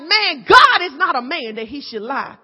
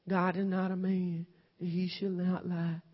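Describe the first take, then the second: First: It is read with lively enthusiasm. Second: It is read flatly, without enthusiasm.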